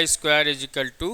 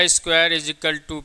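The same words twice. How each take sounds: The two takes are said the same way.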